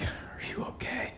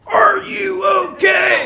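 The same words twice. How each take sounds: First: Barely whispered, airy question; hushed concern. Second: Slow, high, booming shout; imagined drill-sergeant shout. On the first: Dad checking on his injured son, hushed whisper. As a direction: whisper it to your hurt child. What dad really said, versus heard. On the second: Dad as the scared son hears him, slow loud bellow. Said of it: "but I heard". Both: Retold or imitated.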